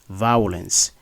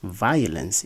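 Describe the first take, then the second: First: The first syllable is not a vowel like 'ire'. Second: The first syllable is a three-part vowel like 'ire'. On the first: The speaker calls it wrong. "instead of" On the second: The speaker calls it right. "the I O grapheme is pronounced as a triphthong"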